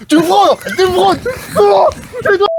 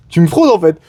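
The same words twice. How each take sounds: First: High-pitched outraged shriek, building; shrieking accusation. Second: Said in the usual way. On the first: Acted. (cri suraigu outré)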